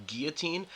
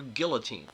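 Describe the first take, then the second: First: Put-on "guillotine" as GEE-uh-teen; pronounced without L. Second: Put-on "guillotine" as GILL-uh-teen; pronounced with L. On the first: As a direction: silent L in "guillotine". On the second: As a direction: clear L in "guillotine". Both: Shown as a demonstration. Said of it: "both versions of that word pronounced".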